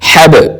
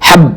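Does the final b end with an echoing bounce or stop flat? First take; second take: echoing bounce; flat. First: The final b bounces with a jolted echoing release. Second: The final b stops flat without any echo. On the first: The speaker calls it right. "आवाज को झटके के साथ हरकत देते हुए डबल आवाज निकालनी है" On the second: The speaker calls it wrong. "हब नहीं पढ़ेंगे"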